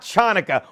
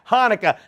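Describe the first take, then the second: First: The word begins with a harsh consonant sound. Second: The word begins with a plain h sound. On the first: The speaker calls it wrong. "Why do people always pronounce the C?" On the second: The speaker calls it right. "It's silent"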